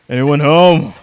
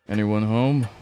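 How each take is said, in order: First: It is shouted loudly with a raised voice. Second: It is said at a normal, unraised volume.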